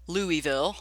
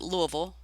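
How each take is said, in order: First: It is pronounced the way outsiders say it. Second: It is pronounced the way locals say it. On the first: "for people outside of Kentucky, that is Louisville" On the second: "The Louisvillians pronounce it Louisville"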